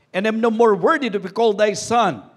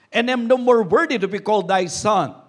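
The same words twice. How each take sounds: No difference in how they are said.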